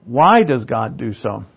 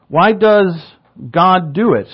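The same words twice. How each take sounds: First: Slow question leading hard on "Why"; corrected emphasis. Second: "does" stressed high and loud, drawn out slowly; slow question leaning hard on "does"; misplaced emphasis. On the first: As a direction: hit "Why", then let the rest fall away. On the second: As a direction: lean on "does" instead of "Why". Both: Real, not acted. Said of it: "I emphasized the wrong syllable there".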